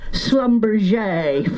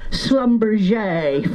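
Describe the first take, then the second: First: The name is said with a French accent. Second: The name is said with a French accent.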